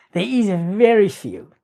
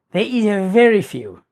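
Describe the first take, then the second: No difference in how they are said.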